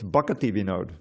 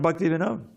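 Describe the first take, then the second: First: The first word is said with three syllables. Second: The first word is said with two syllables. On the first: The speaker calls it right. "It's Bhakti Vinod" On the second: The speaker calls it wrong. "But it's not Bhakti Vinod"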